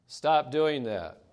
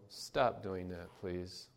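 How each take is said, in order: First: Firmer, slow, louder stop; the parent's patience wearing thin; raised voice. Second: Put-on soft, slow first request to a child; gently asks the child to stop; mild parental request. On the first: Retold or imitated. Parent warning the child again, louder and slower. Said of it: "the next time the voice level rises". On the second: Parent to misbehaving child, soft and slow. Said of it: "a parent may say".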